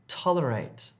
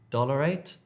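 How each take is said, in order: First: The word begins with a t sound. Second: The word begins with a d sound. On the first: The speaker calls it right. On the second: The speaker calls it wrong.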